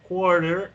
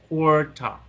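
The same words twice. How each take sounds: First: The final R is pronounced. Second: The final R is silent, British style.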